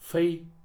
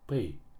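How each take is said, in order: First: The word begins with an f sound. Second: The word begins with a p sound. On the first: "и как Ф" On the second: "как П"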